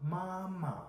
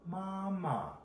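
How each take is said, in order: The two takes are said the same way.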